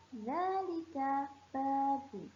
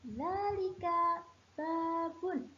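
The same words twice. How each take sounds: First: Dzalika babun repeated at a slow, even pace. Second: Dzalika babun lifted high and drawn out slowly; teacher pitching Dzalika babun up high, slow; high, slow model answer. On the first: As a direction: say Dzalika babun again slowly so pupils copy it. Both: Shown as a demonstration. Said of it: "Solih, bentar".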